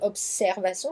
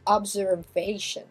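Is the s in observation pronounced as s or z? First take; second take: s; z. First: The s is pronounced as s. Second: The s is pronounced as z. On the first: This is the French way of saying it. "chez nous c'est observation, ça se prononce comme un S" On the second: This is the English way of saying it. "en anglais ça se prononcera Z"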